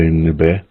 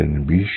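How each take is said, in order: First: "Nibe" ending on an open eh vowel; dialect variant. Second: "Nibish" closed with a final sh; "Nibish", ish ending; dialect variant. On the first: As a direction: say "Nibe" with no final sh. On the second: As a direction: end "Nibish" on a hushing sh. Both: Shown as a demonstration. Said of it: "Some will say".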